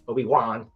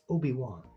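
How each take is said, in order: First: The last syllable is hit hard and separately. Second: The syllables flow smoothly without a hard last syllable. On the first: The speaker calls it wrong. "she like hardcore pronounced the one" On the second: The speaker calls it right. "It's very smooth"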